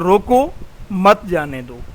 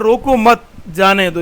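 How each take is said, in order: First: There is a pause right after 'roko'. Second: There is a pause right after 'mat'.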